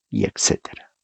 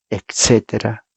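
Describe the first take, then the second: First: Dropped to a whisper. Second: Said in the usual way. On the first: Real, not acted. Trailing list of nations.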